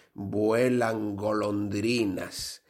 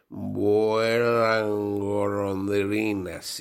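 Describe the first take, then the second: First: Drawn-out password; slow, deliberate code phrase. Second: Very slow, drawn-out password; slurred, drawn-out password; slow tipsy password. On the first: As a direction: say it slowly like a code. Password said in joke. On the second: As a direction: drag out the code phrase after drinks. Nervous man says password. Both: Acted.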